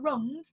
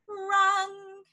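First: The vowel is a standard English u sound. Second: The vowel is a Cockney sound, closer to a. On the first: "Instead of rung" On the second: "A bit more A on your U's helps a lot"

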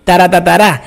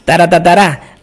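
Both takes have the same delivery.

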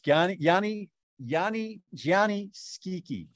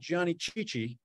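First: The surname starts with an 'sk' sound. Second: The surname starts with a 'ch' sound. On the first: The speaker calls it right. "That's how you pronounce it" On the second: The speaker calls it wrong. "It's not Johnny Chichi"

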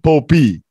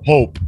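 First: The word ends with an added vowel sound. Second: The word ends on its final consonant. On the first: The speaker calls it wrong. "It's not Popey. We don't pronounce the E" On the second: The speaker calls it right. "It's just the Pope"

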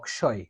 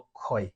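First: The middle cluster sounds like k followed by sh. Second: The middle cluster sounds like k followed by kh. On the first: This follows the letters actually written. "এটার উচ্চারণটা হওয়া উচিত ছিল" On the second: This follows the dictionary pronunciation. "Bangla একাডেমির যে অভিধান অনুযায়ী এই জিনিসটাকে আমরা উচ্চারণ করি"

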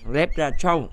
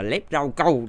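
First: The name is said closer to its original form. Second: The name is reshaped into Vietnamese words. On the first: This is the character's actual name. "thực tế cái tên của nó là rép lép lép ra châu" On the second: This is a playful local nickname. "Bùm thích đọc là lép rau câu thì để nó cho nó thuần Việt"

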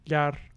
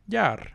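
First: The pitch stays level at mid height. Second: The pitch falls across the word. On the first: "I would have a 3-3" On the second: "we are like inherently pronouncing it as a falling tone because that's what English does"

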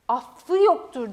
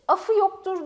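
First: The f sound is long and doubled. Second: The f sound is short and single. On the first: The speaker calls it right. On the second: The speaker calls it wrong. "demeyiz mesela"

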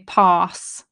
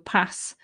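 First: The vowel in pass is long and open. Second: The vowel in pass is short and flat. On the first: This is how other British speakers say it. "Other British English people would say pass. It's the bath, bath sound" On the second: This is how some British speakers say it. "she says pass like I do"

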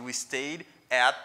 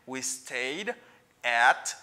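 First: The words run together, linked into one. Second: The words are said separately, not linked. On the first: The speaker calls it right. "ou liye pou ap di we stayed at" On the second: The speaker calls it wrong. "Instead of saying we stayed at"

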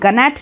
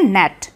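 First: A g sound is heard before the n. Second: The word starts with n, no g sound. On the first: The speaker calls it wrong. "यहाँ पे हम गनैट नहीं बोलते" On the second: The speaker calls it right. "इसे हम बोलते हैं नेट"

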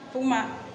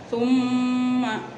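First: The m sound is short without a hum. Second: The m sound is held with a nasal hum. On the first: The speaker calls it wrong. "Jangan dibaca summa. Nah, itu tidak boleh, salah" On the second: The speaker calls it right. "mimnya didengungkan dulu atau ditahan"

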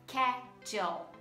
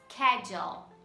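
First: It begins with a 'sk' sound. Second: It begins with a 'sk' sound.

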